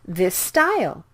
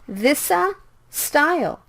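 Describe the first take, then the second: First: One lengthened S sound joins the two words. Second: An extra vowel separates the two S sounds. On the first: The speaker calls it right. "speak it with one S sound" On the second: The speaker calls it wrong. "Please don't say this'a style"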